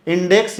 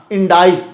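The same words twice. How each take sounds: First: इंडेक्स said as "in-deks", ending in a crisp ks; index pronunciation. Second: इंडाइस said as "in-dais", with a long ai glide; indices variant. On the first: (इंडेक्स का सामान्य उच्चारण, इन-डेक्स) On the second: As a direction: give the alternate form इंडाइस, in-dais. (इंडाइस, इन-डाइस वाला उच्चारण) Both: Shown as a demonstration. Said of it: "इंडेक्स या को बहुत सारे लोग इंडाइस बोलते हैं".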